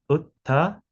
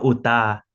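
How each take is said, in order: First: The t sound is aspirated, from the throat. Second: The t sound is plain, without aspiration. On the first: The speaker calls it right. "es utta" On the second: The speaker calls it wrong. "no uta"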